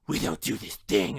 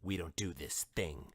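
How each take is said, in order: First: A gravelly voice, loud, forceful and exaggerated. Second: A gravelly voice, controlled and clearly understandable. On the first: The speaker calls it wrong. "so forceful and so over the top" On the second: The speaker calls it right. "I did a bad impression but he's still doing his Rorschach voice"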